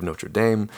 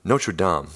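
First: "Notre Dame" said NOH-truh DAYM, Midwest American style. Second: "Notre Dame" redone as NOH-ter DAHM, closer to French; corrected Notre Dame. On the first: Real, not acted. Podcast host slipping into his Midwest reading of the title, Midwestern pronunciation. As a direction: say "Notre Dame" the flat Midwestern way, rhyming with "same". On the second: Shown as a demonstration. Host correcting himself after the Midwest slip, French-leaning pronunciation. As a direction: fix "Notre Dame" with an open DAHM ending. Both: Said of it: "That's my Midwest accent showing".

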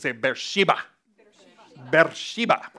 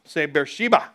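First: Beersheba said as bersh-EE-bah; Beersheba pronounced Bersheba. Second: Said in the usual way. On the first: Shown as a demonstration. Preacher showing congregation how to say Beersheba. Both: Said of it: "you gotta say it like this".

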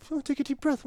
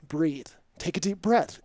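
First: High-pitched mocking parrot; mocking echo. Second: Measured, firm instruction; retold stern helper, lightly voiced; stern coaching. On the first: Patient to stern helper, mocking. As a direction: throw the advice back in a high mock voice. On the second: Helper to tripping stranger, mildly stern. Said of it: "he's very stern with me".

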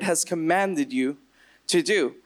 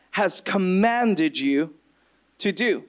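First: Said in the usual way. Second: COMMANDED drawn out slowly and weighted; emphasis on COMMANDED. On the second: Shown as a demonstration. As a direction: lean on "commanded", slow and deliberate. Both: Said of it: "I want to put emphasis on that".

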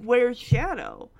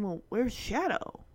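First: Slower, drawn-out question; weighty question. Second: Low-key, softer thinking aloud; wondering. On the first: Fan sets up the big moment, slow and weighty. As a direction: spell out the big question slowly. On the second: Peter notices his dog is missing, quiet wondering. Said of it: "Peter's kinda, like, thinking". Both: Retold or imitated.

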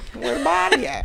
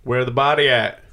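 First: Put-on cop voice, higher; cop impression. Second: Gruff cop asking where the body is; a hint of a tough cop; cop impression. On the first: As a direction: play a goofy cop demanding answers. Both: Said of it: "I was doing a cop's impression".

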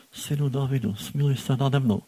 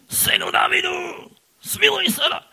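First: Said in the usual way. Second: High, loud shout for mercy; loud desperate cry. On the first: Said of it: "to nemohlo být". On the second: Shown as a demonstration. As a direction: cry out over the crowd as loud as you can. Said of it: "On musel křičet".

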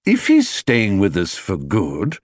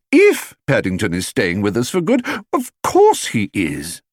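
First: Slow deliberate father; slow, weighty. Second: Rising, insisting wife; insistent. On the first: Father to family, slow and weighty. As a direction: spell out the condition slowly. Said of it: "he said". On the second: Wife correcting husband, insistent. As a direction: push back firmly on the doubt. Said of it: "exclaimed Missus Brown". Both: A narrator's reading.

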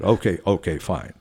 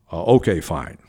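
First: Said in the usual way. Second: Mildly deepened, official reply; dropped voice. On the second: Retold or imitated. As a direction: drop the voice to sound important. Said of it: "I'm dropping my voice".

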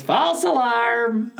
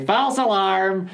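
First: Put-on nasal, high old man voice; grumpy old man. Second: Put-on lightly nasal, pitched-up old man; a hint of a cranky old man calling out. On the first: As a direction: bark it like a cranky old man. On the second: Shown as a demonstration. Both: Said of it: "in a nasal, pitched up old man voice like that".

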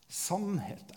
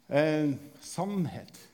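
First: Quiet solemn repeat. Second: Slow drawn-out word. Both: Shown as a demonstration.

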